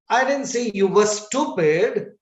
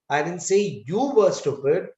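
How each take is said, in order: First: The word stupid carries the main stress. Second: The word you carries the main stress. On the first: A different quality was named. "I said you were good" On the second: Someone else could be the stupid one. "So now I'm putting stress on you"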